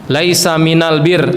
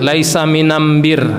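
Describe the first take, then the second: First: The article is pronounced with an l sound. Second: The article is pronounced with an m sound. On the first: This is the common form of the saying.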